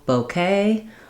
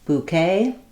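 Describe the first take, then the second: First: The first vowel is an 'oh' sound. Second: The first vowel is an 'oo' sound. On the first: "no bouquet" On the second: "new bouquet"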